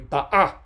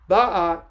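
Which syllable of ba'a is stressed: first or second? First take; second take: second; first. First: The stress is on the second syllable. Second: The stress is on the first syllable. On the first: The speaker calls it right. "The stress syllable is the second syllable" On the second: The speaker calls it wrong. "Sorry, I should say"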